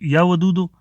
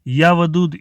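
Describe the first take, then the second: First: The last word ends with an added o vowel. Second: The last word ends on a consonant. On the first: The speaker calls it wrong. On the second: The speaker calls it right.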